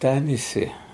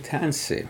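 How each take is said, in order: First: The word is said in full, every vowel kept. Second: The word is shortened, with a vowel dropped. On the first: This is the old, formal way of speaking. "our people say tanise" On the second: This is the newer, everyday way of speaking. "when I say tanse"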